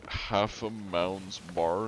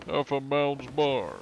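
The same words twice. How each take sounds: First: Said in the usual way. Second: High, slow cartoon-voice attempt; Joe Swanson. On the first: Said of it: "can you say half a mound's bar". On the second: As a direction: draw it out in a raised put-on voice. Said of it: "in a Joe Swanson voice".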